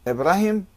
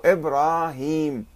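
First: إبراهيم said as Ibrahem; إبراهيم ending in a short "-hem"; short final vowel. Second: إبراهيم stretched to Ibraaheem; إبراهيم with a held "-heem"; long vowels. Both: Shown as a demonstration. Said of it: "يعني المد".

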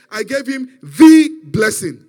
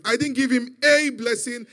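First: "the" shouted as a long, drawn-out "thee"; stress on "the". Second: "a" said as a long, stressed "ay". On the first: Father tells his son what was given, booming "the". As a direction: boom out "the", slow and very loud. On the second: Father corrects his son about the gift, stressing "a". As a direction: lean on "a", loud and raised. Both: Retold or imitated. Contrasts a blessing with the blessing.

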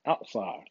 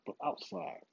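First: Said in the usual way. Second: "outside" dropped to a soft, breathy, higher emphasis; hushed pointed "outside"; stress on outside. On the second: Shown as a demonstration. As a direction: lean on "outside" in a near whisper. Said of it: "outside, not inside".

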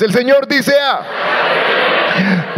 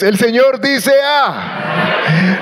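First: Slow, shouted collective reading; slow, loud recitation; strong loud reading. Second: Said in the usual way. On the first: Real, not acted. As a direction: belt it out together. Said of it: "Vamos todos fuertes". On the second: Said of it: "no, qué flojera. Eso está muy flojo".

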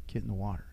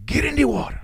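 First: Said in the usual way. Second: High, loud mock Puerto Rican accented bark; Puerto Rican instructor. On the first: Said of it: "And he goes". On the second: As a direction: play the Puerto Rican instructor barking the order. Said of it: "And that's how it sounded".

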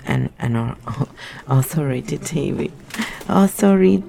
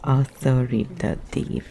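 First: "authoritative" tripped over mid-laugh, syllables jumbled; giggling failed try at "authoritative"; stumbling with a laugh. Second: "authoritative" said slowly, syllable by syllable; deliberate slow retry of "authoritative"; careful slow pronunciation. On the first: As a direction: laugh while botching "authoritative". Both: Shown as a demonstration. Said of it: "I can't say this word".

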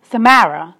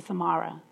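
First: Samara as suh-MAIR-uh, louder; teacher's mispronunciation. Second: Samara as suh-MAH-ruh, quiet; gently correct: Samara with an open "ah"; correct pronunciation. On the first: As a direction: insist on Samara with the "mare" vowel. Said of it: "And the teacher said". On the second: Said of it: "And I said". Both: Retold or imitated.

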